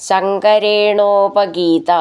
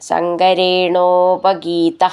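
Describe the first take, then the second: No difference in how they are said.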